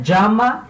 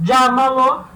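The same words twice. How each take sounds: First: Llama with LLA stressed, rising. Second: Llámalo higher and louder, LLÁ stressed. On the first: Teacher showing the paroxytone stress, rising. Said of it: "a sílaba tônica é a segunda de trás pra frente". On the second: Teacher drawing attention to the stressed syllable, raised. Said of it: "Agora, repara". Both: Shown as a demonstration.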